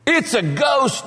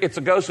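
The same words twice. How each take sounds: First: High, drawn-out cry of alarm; terrified cry. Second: Said in the usual way. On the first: Acted. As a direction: cry out as if seeing a ghost. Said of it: "they were terrified".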